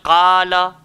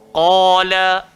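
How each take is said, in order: First: The first sound is thin and light. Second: The first sound is thick and heavy. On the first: The speaker calls it wrong. "tak boleh kita baca Qala" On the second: The speaker calls it right. "kita kena baca Qala"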